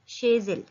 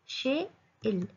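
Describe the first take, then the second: First: A z sound links the two words together. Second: The words are separate with no z sound. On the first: "इसके बीच में लियाज़ होगा" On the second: "यहाँ पे मैंने शेज नहीं बोला"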